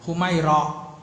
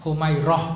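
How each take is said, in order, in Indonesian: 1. Nama itu diakhiri dengan a panjang dan hamzah. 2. Nama itu diakhiri dengan a pendek dan h. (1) "Yang betul itu pakai alif taknis mamdudah" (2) "dengarnya kan taunya tak marbutah kan"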